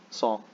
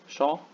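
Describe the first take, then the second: First: It begins with a plain s sound. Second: It begins with an sh sound. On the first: "just pronounce it as a simple S" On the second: "many West Bengalis will pronounce this as sh"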